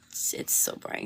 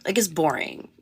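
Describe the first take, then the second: First: Breathy whisper, much softer. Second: Said in the usual way. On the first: Shown as a demonstration. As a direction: drop to a whisper on it. Repeats boring, then whispers it.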